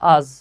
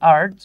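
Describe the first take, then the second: First: The word has no r sound at all. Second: The word has a clearly pronounced r sound. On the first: The speaker calls it right. "কিন্তু এটা উচ্চারণ হচ্ছে আজ" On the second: The speaker calls it wrong. "বাঙালিরা উচ্চারণ করি আর্জ"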